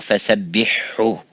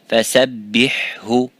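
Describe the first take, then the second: First: The two h sounds merge into one. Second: Both h sounds are pronounced separately. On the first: The speaker calls it wrong. "So do not say" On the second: The speaker calls it right. "the ha before the ha"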